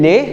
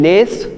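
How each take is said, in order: First: The final S is silent. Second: The final S is sounded. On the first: The speaker calls it right. "we are keeping it silent" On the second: The speaker calls it wrong. "we are not saying les"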